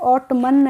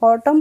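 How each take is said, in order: First: It ends with an added N sound. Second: It ends with an M sound. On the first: The speaker calls it wrong. "ऑटमन नहीं पढ़ेंगे" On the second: The speaker calls it right. "ऑटम पढ़ेंगे"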